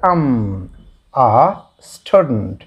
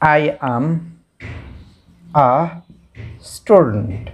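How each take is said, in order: First: "I am" is shortened to one syllable. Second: "I am" is said as two full words. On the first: "আর বলার ক্ষেত্রে" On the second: "যেমন"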